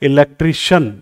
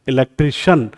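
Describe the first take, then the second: The two takes are said the same way.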